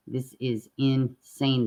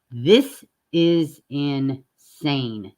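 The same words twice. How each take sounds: First: Said in the usual way. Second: Very slow, weighted "This is insane"; drawn-out disbelief. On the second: Real, not acted. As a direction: stretch every word out slowly, stunned. Reacting in disbelief to news story.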